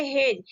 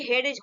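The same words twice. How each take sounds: First: हेज as one syllable, straight into J; silent D. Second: हेडेज in two syllables with a clear D; wrong, D sounded. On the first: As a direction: say हेज without a separate D. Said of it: "यहाँ पे क्या पढ़ेंगे". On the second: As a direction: say हेडेज, pronouncing D before the J. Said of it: "ऐसा नहीं कि". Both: Shown as a demonstration.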